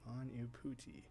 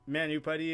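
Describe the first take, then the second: First: The second u is an oo sound. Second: The second u is not an oo sound. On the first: The speaker calls it right. "the second U also had an O O sound" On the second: The speaker calls it wrong. "Manuputty is totally wrong on the pronunciation"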